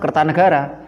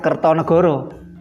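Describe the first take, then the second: First: The vowels are pronounced as open a-sounds. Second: The vowels are pronounced as rounded o-sounds. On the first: The speaker calls it right. "membacanya tetap Kertanegara" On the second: The speaker calls it wrong.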